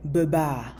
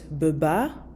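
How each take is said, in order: First: Biba slowly as "buh-baah", long A falling at the end; stretched A. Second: Biba slowly as "buh-ba", short A, pitch rising at the end; unstretched A. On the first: Teacher contrasting two sounds for learners, biba with a long A. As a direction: draw out the last A of biba. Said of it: "you have to stretch the letter". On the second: Teacher contrasting two sounds for learners, biba with a short A. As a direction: keep the last A of biba short. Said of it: "I'm gonna say it slowly so you can hear the phonetic difference". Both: Shown as a demonstration.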